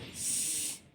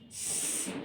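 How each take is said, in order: First: The letter is said as its speech sound. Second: The same.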